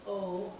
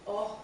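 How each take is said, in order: First: "O" drawn out as a long "oh"; long, closed "O"; lengthened vowel. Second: "O" as a short "oh" without glide; short, open "O"; short vowel. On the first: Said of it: "It lengthens the vowel". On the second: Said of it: "it also changes the sound". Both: Shown as a demonstration.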